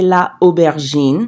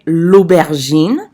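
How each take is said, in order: First: The article's vowel is kept, leaving a gap. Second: The article's vowel is dropped and joined on. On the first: The speaker calls it wrong. "we can't say la aubergine. It's not pretty" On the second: The speaker calls it right. "For a contraction, we would say"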